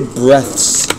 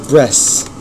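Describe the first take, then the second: First: The word ends with a clear th sound. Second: The word ends with an s sound, like breasts. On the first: The speaker calls it right. "He could never say breaths" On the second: The speaker calls it wrong. "It was always breaths"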